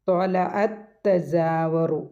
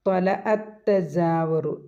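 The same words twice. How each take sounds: First: ത്വലഅത്തജാവറു slowly, the two ta sounds said as one with a rise at the end; ത്വലഅത്തജാവറു drawn out and merged. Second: ത്വലഅത്തജാവറു very slowly, with the two ta sounds merged into one; ത്വലഅത്തജാവറു drawn out, ത്വലഅത് flowing into തജാവറു. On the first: (ത്വലഅത്തജാവറു, താ ചേർത്ത് നീട്ടി) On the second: (ത്വലഅത്തജാവറു, രണ്ട് താ ചേർത്ത് പതുക്കെ) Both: Shown as a demonstration. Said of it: "അങ്ങനെയാണ് പറയുക".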